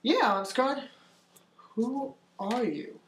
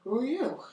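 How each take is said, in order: First: Artemis. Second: Higher-pitched puzzled gnome voice; little gnome. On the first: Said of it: "Ansgar, and says". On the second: Gnome looks at the player and asks, high-pitched little voice. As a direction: swoop up high on a wary question, then drop. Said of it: "the gnome sort of looks down". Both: Acted.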